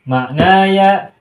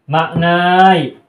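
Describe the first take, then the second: First: The word ends with a full 'aya' syllable. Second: The word ends in a short 'ai' glide. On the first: The speaker calls it right. "Melainkan harus" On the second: The speaker calls it wrong. "tidak kita temukan"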